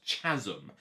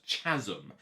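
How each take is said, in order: First: The word is pronounced in an odd way. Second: The word is pronounced in an odd way.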